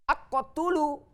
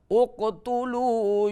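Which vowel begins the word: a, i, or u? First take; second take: a; u. First: The word begins with an a vowel. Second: The word begins with an u vowel. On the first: The speaker calls it wrong. "Tidak boleh" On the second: The speaker calls it right. "harus selalu dengan dhammah"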